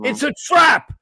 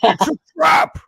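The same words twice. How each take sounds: First: It is said in the reader's normal voice. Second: It is said in an Admiral Ackbar voice.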